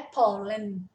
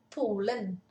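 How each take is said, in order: First: "Polen" with a plain Portuguese O, like po-len; the mistaken "Polen", O said as O; wrong pronunciation. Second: "Polen" with the O said like U, pu-len; pronúncia norueguesa de "Polen", com som de U; Norwegian pronunciation. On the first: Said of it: "Não é Polen, é Polen". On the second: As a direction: correct Norwegian "Polen", O sounding as U. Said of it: "o O, ele tem um som de U aqui". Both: Shown as a demonstration.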